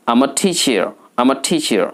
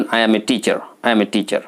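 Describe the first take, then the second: First: "I'm a" run together as am-a; smart accent. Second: Said in the usual way. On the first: Shown as a demonstration. Teacher models a job answer, smart contracted accent. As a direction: puff the t in "teacher". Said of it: "smart অ্যাকসেন্টে কথা বলতে হবে". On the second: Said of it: "সাধারণভাবে অধিকাংশ ব্যক্তি".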